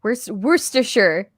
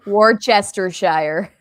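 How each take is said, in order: First: Worcestershire said slowly as WUS-ter-sher; careful pronunciation. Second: Worcestershire drawn out as WOR-chester-shire; deliberate mispronunciation. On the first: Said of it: "That's what I said". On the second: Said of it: "based on the pronunciation of Worcestershire". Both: Shown as a demonstration.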